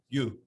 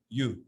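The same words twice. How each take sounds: Both takes have the same delivery.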